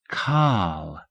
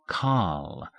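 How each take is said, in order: First: "Carl" tried by the pupil, a touch off; pupil's attempt. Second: "Carl" with a long open ah and no r; pron demo. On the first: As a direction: imitate "Carl" the way the teacher just said it. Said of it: "Try that". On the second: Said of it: "making that first syllable sound like this". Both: Shown as a demonstration.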